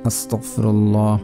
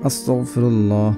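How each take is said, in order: The two takes are said the same way.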